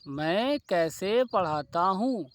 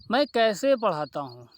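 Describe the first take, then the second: First: मैं कैसे पढ़ाता हूँ said slowly, word by word; slow dictation. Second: Said in the usual way. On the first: Shown as a demonstration. Teacher repeating the example slowly for students. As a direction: spell it out slowly for the class. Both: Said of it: "question कोई ले लो".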